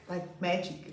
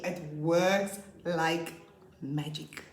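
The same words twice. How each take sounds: First: Said in the usual way. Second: Drawn out, very slow and emphatic; slow emphasis. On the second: Real, not acted. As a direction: stretch every word to sell it. Teacher stressing her point.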